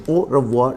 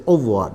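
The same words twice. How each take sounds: First: "Au revoir" as oh-ruh-vwar, middle R sounded; full word pronunciation. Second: "Au revoir" reduced to oh-vwar, no middle R; R dropped. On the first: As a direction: give "Au revoir" every syllable, R included. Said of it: "is the word". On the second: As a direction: say "Au revoir" as in fast speech, swallowing the R. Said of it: "may not hear that R". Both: Shown as a demonstration.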